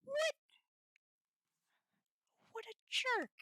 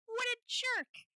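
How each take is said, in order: First: High, louder exclamation; quick indignant outburst; outraged. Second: High, louder, slow and stretched; bigger, dragged-out indignant cry; drawn-out outrage. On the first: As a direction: snap it out. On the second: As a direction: lean hard into each word. Repeated, drawn out. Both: Real, not acted.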